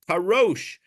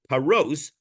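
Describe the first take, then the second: First: The word ends with an sh sound. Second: The word ends with an s sound. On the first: It means to investigate or clarify first. "you can read it with a shin" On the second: It means to break bread. "The letter is written paros with a sin"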